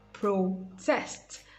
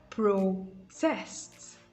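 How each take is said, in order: First: The stress is on the second syllable. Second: The stress is on the second syllable.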